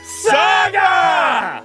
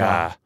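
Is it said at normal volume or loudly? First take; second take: loudly; normal. First: It is said very loudly. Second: It is said at normal volume.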